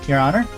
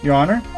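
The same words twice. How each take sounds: First: A harder, more strained character voice. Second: An easier, more relaxed character voice. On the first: The speaker calls it wrong. "I need to do an easier voice for him" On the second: The speaker calls it right. "this is the voice I'll give him"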